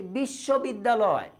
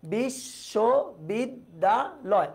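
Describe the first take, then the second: First: Said in the usual way. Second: বিশ্ববিদ্যালয় very slowly, broken into five separate syllables. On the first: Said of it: "আমি যদি বলি বিশ্ববিদ্যালয়". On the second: Shown as a demonstration. Teacher shows students what one breath can pronounce, syllable by syllable. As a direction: pause after each syllable of বিশ্ববিদ্যালয়. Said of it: "নিঃশ্বাসের স্বল্পতম প্রয়াসে কতটুকু করে উচ্চারণ".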